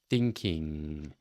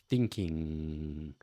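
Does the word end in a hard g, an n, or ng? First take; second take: ng; ng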